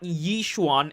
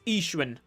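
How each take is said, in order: First: The name begins with a y sound. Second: The name begins without a y sound. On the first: The speaker calls it wrong. "not Yishuan" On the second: The speaker calls it right. "the Y is kind of silent"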